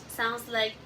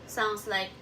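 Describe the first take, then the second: The two takes are said the same way.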